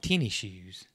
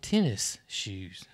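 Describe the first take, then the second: First: The first word ends in an ee sound, no s. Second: The first word ends with a clear s sound. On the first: This is how the locals say it. "We call them tenny shoes" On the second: This is the standard form, not the local one. "We don't call them tennis shoes"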